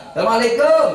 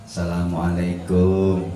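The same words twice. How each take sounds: First: High, loud, quick Assalamualaikum; street greeting call. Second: Polite visitor's greeting. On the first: Greeting someone met on the street, loud high call. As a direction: call it out across the road. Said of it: "Salamnya orang ketemu di jalan". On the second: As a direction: greet gently like a guest at the door. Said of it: "Salamnya orang Namu". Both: Shown as a demonstration.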